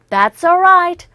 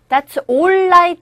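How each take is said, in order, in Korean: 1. s가 뒤의 모음으로 자연스럽게 이어져요. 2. s와 그 뒤의 모음은 따로 발음해요. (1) "that's all 연결하십시오" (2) "that's alright 하지 마시고요"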